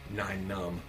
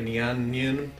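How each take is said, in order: First: The first part sounds like 'nine'. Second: The first part sounds like 'nyan'. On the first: The speaker calls it right. "that would be Nine Numb" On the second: The speaker calls it wrong. "I know some people say Nyan Nyan"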